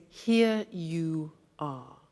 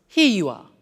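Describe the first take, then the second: First: "Here you are" said slowly, each word separate; slow careful. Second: "Here you are" run together quickly and smoothly; fluent. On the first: Teacher showing the slow careful form of the phrase. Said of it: "that becomes". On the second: Teacher showing the fluent everyday form of the phrase. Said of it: "when we're speaking fluently". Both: Shown as a demonstration.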